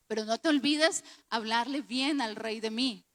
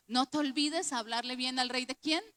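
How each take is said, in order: First: Lightly acted plea with a falling end; understated request to the cupbearer; José's request. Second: Softer repeat that climbs at "quién"; pointed question. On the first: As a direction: quote José asking a favour, ending firmly down. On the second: Shown as a demonstration. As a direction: repeat it as a quiz, rising sharply on "quién".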